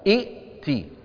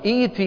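First: A glottal stop comes right before the t. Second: A long ee vowel comes right before the t. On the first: This is the underlying original form of the word. The speaker calls it wrong. "لأنه أصلها إئتي يا فلان" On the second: This is the form actually spoken. The speaker calls it right. "يبدلون الهمزة الثانية ماذا؟ يا"

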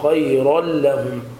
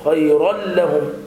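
First: The words flow out smoothly and easily. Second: The words are pushed out harshly and forced. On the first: The speaker calls it right. "هكذا تكون القراءة بسلاسة" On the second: The speaker calls it wrong. "بنهر الحرف أو بالتكلف عند النطق"

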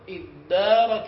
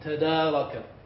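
First: The t merges into a doubled d sound. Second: A separate t sound is heard before the d. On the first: "بل ادارك علمه" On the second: "الأصل فيه تدارك"

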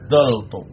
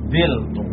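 First: Two syllables, with an a vowel after dh. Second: Two syllables, with an i vowel after dh. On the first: "lam kalimahnya dibuang, fa kalimahnya harokatnya tetap" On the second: "lam kalimahnya dibuang, kemudian harokat pada ain kalimah dioper ke pak kalimahnya"

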